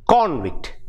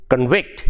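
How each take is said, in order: First: CONvict, strong CON, falling away; first-syllable stress. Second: ConVICT, weak start and rising end; second-syllable stress. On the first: Teacher contrasting noun with verb, first-syllable stress on convict. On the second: Teacher contrasting verb with noun, second-syllable stress on convict. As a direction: put the weight on VICT in convict. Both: Shown as a demonstration. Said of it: "See the difference".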